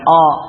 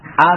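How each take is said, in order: First: The vowel is rounded toward o. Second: The vowel is an open, unrounded a. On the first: The speaker calls it wrong. "bukan o" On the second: The speaker calls it right. "A bukan o ya"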